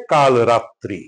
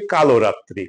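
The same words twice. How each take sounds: First: কাল রাত্রি with no o after ল; "kaal-ratri" for কাল রাত্রি; correct pronunciation. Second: কালো রাত্রি with an added o; কালো রাত্রি with o after ল; common mispronunciation. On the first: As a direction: close কাল on the l before রাত্রি. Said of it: "এটা উচ্চারণ হবে". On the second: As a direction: say "kalo-ratri". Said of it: "আমরা ভুল করে এটাকে উচ্চারণ করি". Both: Shown as a demonstration.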